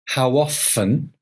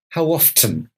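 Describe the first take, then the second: First: The T in often is silent. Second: The T in often is pronounced.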